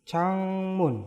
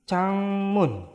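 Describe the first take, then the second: Both takes have the same delivery.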